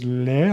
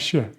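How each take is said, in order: First: The consonant sounds almost like an l. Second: The consonant sounds like sh. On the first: This is how it is said in other regions. "in others le, almost an L" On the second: This is how it is said in Argentina. "in places like Argentina, a completely different sound like sh"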